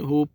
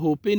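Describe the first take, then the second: First: The word ends on the p sound. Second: An extra vowel is sounded after the p. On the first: The speaker calls it right. "होप पढ़ते हैं" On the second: The speaker calls it wrong. "इसको होपे नहीं पढ़ते हैं"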